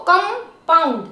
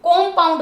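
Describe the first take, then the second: First: कंपाउंड begun with "kum", in two clear parts; short "uh" in the first syllable of कंपाउंड; corrected first vowel. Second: कंपाउंड with an "o" in the first syllable, "kom-paund"; कंपाउंड begun as "kom"; wrong first vowel. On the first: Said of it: "कंपाउंड मत बोलिए इसको". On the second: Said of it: "मत बोलिए इसको". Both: Shown as a demonstration.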